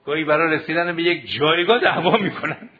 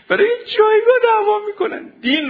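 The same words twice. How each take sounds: First: Said in the usual way. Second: Much higher, louder, voice breaking into tears; crying out. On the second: Real, not acted. Preacher grieving to students over fights for rank, crying. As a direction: cry it out in real anguish.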